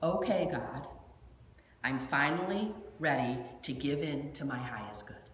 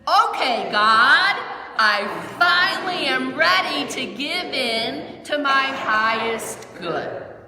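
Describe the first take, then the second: First: It is said in a flat, bland way. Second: It is said with lively enthusiasm.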